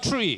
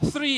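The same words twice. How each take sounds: First: The word begins with a hard t sound. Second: The word begins with a soft th sound. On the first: The speaker calls it wrong. "and not" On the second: The speaker calls it right. "pronounce the th sound correctly"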